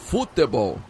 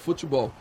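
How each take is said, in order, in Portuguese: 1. A palavra é dita do jeito que não é do Rio. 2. A palavra é dita do jeito do Rio de Janeiro. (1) "Em vez de futebol" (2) "O carioca fala futebol"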